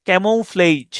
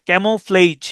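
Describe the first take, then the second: The two takes are said the same way.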